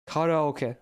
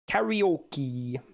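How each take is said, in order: First: The word is pronounced the Japanese way. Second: The word is pronounced the English way. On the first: The speaker calls it right. "That's how it's in Japanese, how it's intended to be" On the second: The speaker calls it wrong. "in English, everyone says karaoke"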